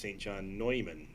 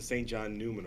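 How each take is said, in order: First: The surname is said the German way. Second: The surname is said the English way. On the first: "the German way of saying the name" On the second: "before he got here, it was always the Saint John Newman Award"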